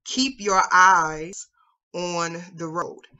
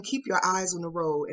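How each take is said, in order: First: Very slow, calm and steady; calm instructor. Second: Said in the usual way. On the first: Retold or imitated. Instructor to panicking learner, calm and very slow. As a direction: coach it slowly, steadying a nervous driver. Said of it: "really calmly says". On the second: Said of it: "his instructor said to him".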